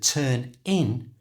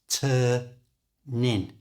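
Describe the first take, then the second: First: The two words are said separately. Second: The n links into the second word.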